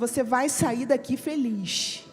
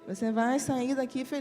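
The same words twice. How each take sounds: First: It is said in a happy, cheerful tone. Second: It is said in a glum, flat tone.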